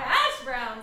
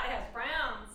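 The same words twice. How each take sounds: First: The stress is on hash. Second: The stress is on browns.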